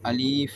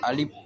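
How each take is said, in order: First: The middle vowel is long, ending in f. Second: The middle vowel is short, ending in p. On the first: "சிலவங்க மொழிகிறது அலீஃப் என்று ... அது தவறானது" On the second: "அல்லது அலிப் என்று மொழிவாங்க. அது தவறானது"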